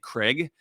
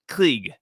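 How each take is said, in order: First: The name is said the American way. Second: The name is said the German way. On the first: The speaker calls it wrong. "I've been saying it wrong. I always say Craig" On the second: The speaker calls it right. "I was told by a German. It's Krieg"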